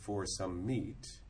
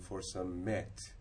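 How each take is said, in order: First: The vowel in meat sounds like meet. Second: The vowel in meat sounds like mate. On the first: This is how the word sounds today. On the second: This is how the word sounded in older English.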